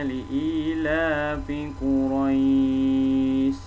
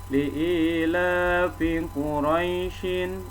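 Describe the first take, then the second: First: The last word ends on a bare consonant. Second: The last word ends with an added 'in' sound. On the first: The reader stops at the end of the verse. "shinnya ini jadi sukun" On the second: The reader goes straight on to the next verse. "baru dibaca baris akhirnya"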